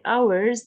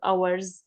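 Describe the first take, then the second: First: The voice stays up, sounding unfinished. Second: The voice falls, sounding finished. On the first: The sentence continues after the comma. The speaker calls it right. "so don't stop. You need to just pause a little" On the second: The sentence ends here. The speaker calls it wrong. "not hours, or or to stop"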